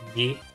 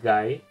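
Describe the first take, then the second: First: The vowel sounds like "ee" in see. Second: The vowel sounds like "eye" in guy. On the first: The speaker calls it right. "I'm trying really hard to pronounce it Gee" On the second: The speaker calls it wrong. "and not Guy"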